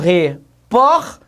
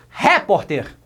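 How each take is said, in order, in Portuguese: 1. A tônica está na sílaba do meio. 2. A tônica está na primeira sílaba. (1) "E neste caso, meus queridos, há o acento" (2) "vamos colocar no re"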